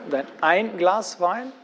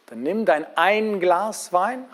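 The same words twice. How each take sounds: First: Ein stressed again, slow and deliberate. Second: Ein stressed slowly as one glass. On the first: Preacher repeats the stressed ein for the listeners, slow. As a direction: Dein ein Glas Wein, one single glass. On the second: Preacher stressing ein to the congregation, slow. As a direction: ein drawn out to mean just one glass. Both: Shown as a demonstration. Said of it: "habt ihr die Betonung gehört?".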